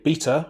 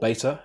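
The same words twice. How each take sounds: First: The word is said in a British accent. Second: The word is said in an American accent.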